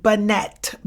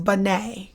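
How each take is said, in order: First: Binet as it looks on paper, ending "-NET"; spelling pronunciation. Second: Binet ending in "ay", no T heard; French pronunciation. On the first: Teacher clearing up exam confusion, Binet read with its T sounded. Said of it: "looks like Alfred Binet". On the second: Teacher correcting the look of the name, Binet said the French way. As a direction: drop the T in Binet, "bih-NAY". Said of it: "but it's pronounced Binet". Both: Shown as a demonstration.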